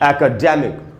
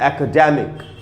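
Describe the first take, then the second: The two takes are said the same way.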